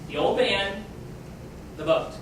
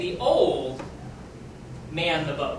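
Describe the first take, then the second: First: There is a break after the word man. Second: There is a break after the word old. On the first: Man is a noun, and the sentence makes no sense. The speaker calls it wrong. "That doesn't even necessarily make sense" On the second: Old people operate the boat. The speaker calls it right. "let's change the phrasing around"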